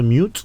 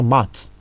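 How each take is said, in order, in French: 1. La voyelle est longue, comme le mot 'you'. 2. La voyelle est courte, comme dans 'cut'. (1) "U c'est U, on va dire mute" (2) "on va pas dire mat"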